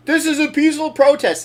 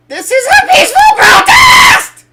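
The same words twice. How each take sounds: First: Raised, brisk crowd call; guy in the background. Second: Very high, piercing mock screech; screeching protester. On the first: Retold or imitated. Co-host imitating a guy at the protest, raised call. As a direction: call it out quickly, higher and louder. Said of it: "this guy in the background go". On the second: Co-host imitating the girl in the protest video, all-out screech. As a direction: screech it at full force, building to the last word. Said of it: "screeching the word protest".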